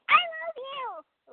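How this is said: It is said with strong, over-the-top feeling.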